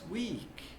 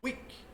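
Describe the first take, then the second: First: The vowel sound is long and held. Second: The vowel sound is short and clipped. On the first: The speaker calls it right. "This is a longer E" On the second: The speaker calls it wrong. "It isn't week"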